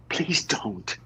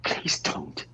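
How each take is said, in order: First: Said in the usual way. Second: Lower, whispered plea. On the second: Acted. Peter begs Marilyn one last time, low whisper.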